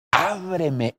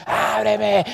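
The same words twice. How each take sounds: First: Drawn-out, gentle calling; tender plea. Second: High, drawn-out mock yell; exaggerated high-pitched demand; demanding call. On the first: Acted. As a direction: call lovingly to a beloved, without force. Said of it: "es una voz suave, es una voz de amor". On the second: Shown as a demonstration. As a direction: call out forcefully, as the wrong way to woo. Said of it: "eso no es una voz".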